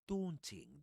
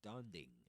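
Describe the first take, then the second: First: It is said with a British pronunciation. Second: It is said with a non-British pronunciation. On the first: The speaker calls it right. "that's the pronunciation in British English" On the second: The speaker calls it wrong. "I don't like that pronunciation"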